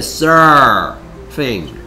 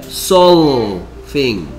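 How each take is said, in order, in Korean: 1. 가운데 자음은 혀를 뒤로 말아 올린 R이에요. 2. 가운데 자음은 L처럼 소리 나요. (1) "얘는 거꾸로 혀가 뒤로 말려 들어가야 돼" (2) "L은 혀가 밖으로 튀어나와야 돼"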